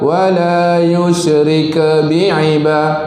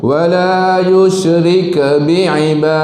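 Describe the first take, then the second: No difference in how they are said.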